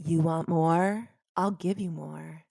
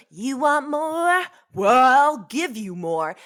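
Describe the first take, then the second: First: Low, slow, sultry catchphrase delivery; signature tagline voice. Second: Light [name] impression, slow and drawn out; imitating [name]. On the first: Shown as a demonstration. Host asks her to say her famous tagline, low and slow. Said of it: "can you say it for me? Your tagline?". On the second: Explaining where the tagline came from, mild [name] imitation. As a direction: stretch it like the pop star, lightly. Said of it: "So in it, she goes".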